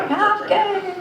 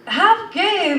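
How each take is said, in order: First: Laughing disbelief. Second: Incredulous. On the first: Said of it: "I was like". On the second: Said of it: "I'm like". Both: Retold or imitated.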